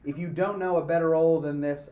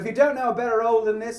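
First: It is read in the speaker's ordinary accent. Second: It is read in a Cockney accent.

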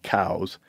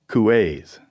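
First: The name is said as one syllable. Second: The name is said as two syllables. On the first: This is the later English way of saying it. "they started pronouncing it cows" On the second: This is the original French way of saying it. "in France, it was two syllables"

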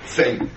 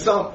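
First: The word is said with a Litvish pronunciation. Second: The word is said with a non-Litvish pronunciation. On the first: "Because that's the Litvish pronunciation of the word" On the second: "they realized he meant some"

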